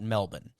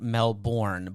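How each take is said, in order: First: It is said the way local residents say it. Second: It is said the way outsiders usually say it. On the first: "locals will call it Melbourne" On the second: "the way it's pronounced, it sounds like Melbourne ... like many of us actually pronounce it"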